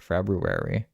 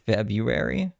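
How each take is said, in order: First: The first r sound is pronounced: Feb-ru-ary. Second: The first r sound is dropped: Feb-u-ary. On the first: "It makes me sound like Scooby Doo" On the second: "I've always said it Feb U, like without the other R"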